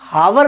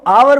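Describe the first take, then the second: First: The word begins with an h sound. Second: The word begins with a vowel sound. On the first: The speaker calls it wrong. "इसको हम हावर नहीं बोलते हैं" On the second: The speaker calls it right. "इसको आवर बोलते हैं"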